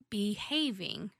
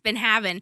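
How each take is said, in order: First: It is said as the single word behaving. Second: It is said as two words, been having. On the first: The speaker calls it right. "I can't say that right in a sentence" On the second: The speaker calls it wrong. "It's been having"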